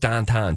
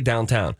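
First: The vowels are flat 'ah' sounds: dahntahn. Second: The vowels are standard 'ow' sounds: downtown. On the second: "They don't say downtown"

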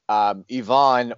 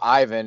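First: The name is said the non-American, European way. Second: The name is said the American way. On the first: "when you said Yvonne" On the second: "as some Americans would say"

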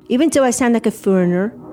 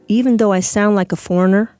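First: The words are spoken with a foreign-sounding accent. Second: The words are spoken with an American Midwestern accent. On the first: This is how the speaker now talks. "So if I say" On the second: This is how the speaker used to talk. "And then I'm singing it in my head right now"

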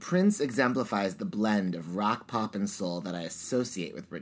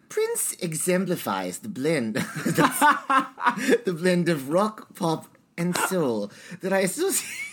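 First: It is said in the speaker's plain accent. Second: It is said in a British accent.

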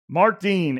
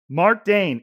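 First: The surname has the vowel of 'bean'. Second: The surname has the vowel of 'rain'. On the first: The speaker calls it wrong. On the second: The speaker calls it right.

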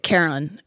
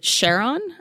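First: The name starts with a hard k sound. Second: The name starts with a sh sound. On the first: The name follows the ancient myth. "I pronounce it Charon because that's the name of basically it's derived from the mythology" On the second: The name honors the discoverer's wife. "people like to pronounce it Charon. ... Charlene after his wife"

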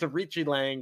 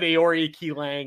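First: The first name sounds like 'Arichi'. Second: The first name sounds like 'Aori Ki'. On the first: The speaker calls it right. "But it's Arichi Lang" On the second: The speaker calls it wrong. "I said Aori Ki Lang or something like that"

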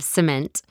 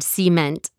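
First: It is said in a standard accent. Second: It is said in a Texas accent. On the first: The speaker calls it right. "instead of cement" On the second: The speaker calls it wrong. "I say the word cement"

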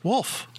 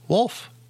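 First: The L sound is dropped, sounding like woof. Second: The L sound is clearly pronounced. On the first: "It's a woof" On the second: "He added the L there that time"

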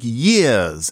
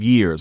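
First: The final R sound is dropped. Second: The final R sound is pronounced. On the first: "somebody saying, for example, something like years" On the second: "instead of years"

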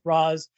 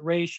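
First: The name ends with an 's' sound. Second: The name ends with an 'sh' sound. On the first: This is how the speaker says the name. "I pronounce it Ra's" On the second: This is how other people say the name. "I don't care if you pronounce it Raish"

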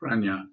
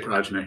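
First: The middle consonant is an ny sound. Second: The middle consonant is a hard j sound. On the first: This is how a Sanskrit speaker says it. "says Pranya" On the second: This is how it is said locally. "We say Prajna here because we're in Michigan"

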